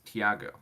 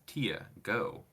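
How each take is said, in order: First: It sounds like 'Iago' with a T added. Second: It sounds like 'Tia' followed by 'go'. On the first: "like Iago, but with a T" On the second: "I always read that as Tia, go"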